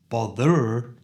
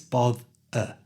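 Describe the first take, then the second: First: The final syllable has a full, strong vowel. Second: The final syllable has a weak schwa vowel. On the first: The speaker calls it wrong. "So it's not bother" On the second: The speaker calls it right. "it's both-er"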